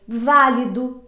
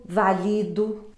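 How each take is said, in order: First: Válido with the stress on the first syllable VÁ; válido, VÁ strongest. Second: Valido slow and soft, stress on LI; slow, soft valido, LI strongest. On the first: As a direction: hit VÁ in válido. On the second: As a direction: draw out valido and land on LI. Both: Shown as a demonstration. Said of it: "mas de tonicidade diferente".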